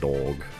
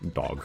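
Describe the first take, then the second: First: The vowel is an open unrounded American O. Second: The vowel is a short rounded British O. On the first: The speaker calls it wrong. "They end up saying, like, dog" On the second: The speaker calls it right. "the oh sound like dog and not"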